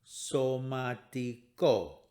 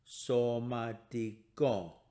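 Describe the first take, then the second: Both takes have the same delivery.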